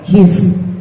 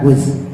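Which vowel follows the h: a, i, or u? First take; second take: i; u. First: The vowel after h is i. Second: The vowel after h is u. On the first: The speaker calls it right. "dengan dibaca kasroh huruf hak kecilnya" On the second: The speaker calls it wrong. "bukan hus"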